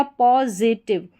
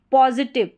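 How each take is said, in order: First: positive drawn out at half pace, po, zi-tiv; slow, syllable by syllable. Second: Said in the usual way. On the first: Shown as a demonstration. Teacher answers own quiz for learners, slow and split. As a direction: split positive slowly into its parts.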